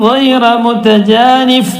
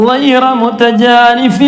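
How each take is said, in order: No difference in how they are said.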